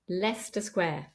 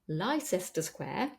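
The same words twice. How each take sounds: First: The first word is said with two syllables. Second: The first word is said with three syllables. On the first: The speaker calls it right. "Two syllables" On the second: The speaker calls it wrong. "this is not Leicester Square, as it looks like"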